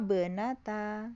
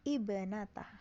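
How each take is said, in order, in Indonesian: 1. Vokal awal dihilangkan, disambung dengan kata sebelumnya. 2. Kata dimulai dengan vokal 'i' yang diucapkan. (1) "kalau diwasol" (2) "memulai dari ibnata berarti bacanya kasroh"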